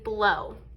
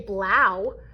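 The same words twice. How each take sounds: First: The vowel sounds like a long O. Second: The vowel sounds like the one in cow. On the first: The speaker calls it right. "we say O as in blow" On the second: The speaker calls it wrong. "we don't say blow like the word cow"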